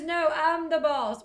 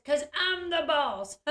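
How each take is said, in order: First: A louder, slow, mock-stubborn kid voice; bossy little girl. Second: Said in the usual way. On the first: Little girl telling the interviewer she is the boss, in a slow mock-stubborn child voice. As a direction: plant your feet like a small bossy child.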